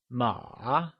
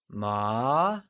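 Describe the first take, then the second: First: The pitch dips low, then rises again. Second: The pitch rises steadily from mid to high. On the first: It means horse. "with a falling rising tone, also known as the third tone" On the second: It means fabric. "it is said with the mid-rising tone, or second tone"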